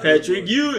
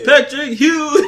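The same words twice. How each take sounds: First: The surname starts with a plain vowel sound. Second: The surname starts with an h sound. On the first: The speaker calls it wrong. "No, that's trash, bro" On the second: The speaker calls it right. "That's way that's better"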